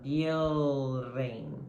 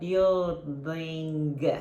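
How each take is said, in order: First: The word ends without any g sound. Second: A hard g sound is pronounced at the end. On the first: The speaker calls it right. "você vai falar building" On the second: The speaker calls it wrong. "Você não vai falar building"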